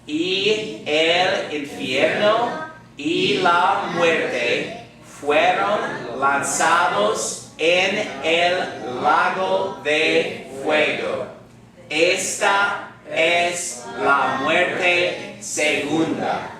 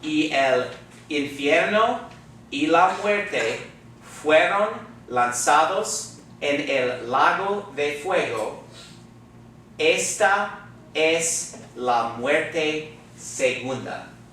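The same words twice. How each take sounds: First: It is read very slowly. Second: It is read at normal speed.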